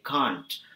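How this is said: It has a broad British-like 'ah' vowel. "but we say can't. So it's very close to the British accent"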